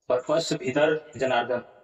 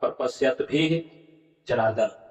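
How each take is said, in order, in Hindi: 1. 'bhi' के बाद र की ध्वनि बोली जाती है। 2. र की जगह h जैसी साँस वाली ध्वनि बोली जाती है। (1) "आप भ के बाद रो का उच्चारण आप कर रहे हैं" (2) "उस रेप का विसर्ग हो जाएगा"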